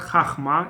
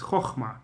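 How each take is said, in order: First: The first vowel is an open 'ah' sound. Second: The first vowel is a rounded 'oh' sound. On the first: The speaker calls it wrong. "It's not" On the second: The speaker calls it right. "with O"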